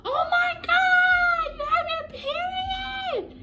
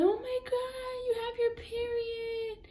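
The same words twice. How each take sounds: First: Very high, loud, drawn-out shriek; imitated mom scream. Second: Very high, drawn-out mock whimper; imitated crying aunt. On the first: Mom hears her daughter has her period, imitated screaming. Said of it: "My mom literally screamed". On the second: Aunt cries over her niece's first period, imitated crying. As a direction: whimper it slowly like a tearful aunt. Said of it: "she's over there crying".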